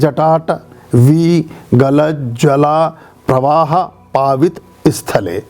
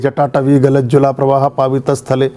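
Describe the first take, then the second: First: It is recited slowly, broken into separate chunks. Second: It is recited faster, in one smooth flow. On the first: "अब इसको रोज ऐसे ही पढ़िए" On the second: "थोड़ा flow बढ़ाइए"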